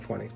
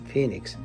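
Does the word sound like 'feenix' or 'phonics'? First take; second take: phonics; feenix. First: The word sounds like 'phonics'. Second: The word sounds like 'feenix'. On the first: The speaker calls it wrong. "that's not Phoenix" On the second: The speaker calls it right. "that's Phoenix"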